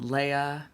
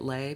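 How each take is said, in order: First: The name is two syllables, ay then uh. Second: The name is one syllable with an ay vowel. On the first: "thank you, Star Wars" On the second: "I get Lay because that damn word slay"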